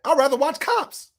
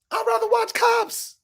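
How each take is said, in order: First: Said in the usual way. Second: Mocking repeat. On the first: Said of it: "repeats the jab". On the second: Shown as a demonstration. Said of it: "repeats the jab, drawn out".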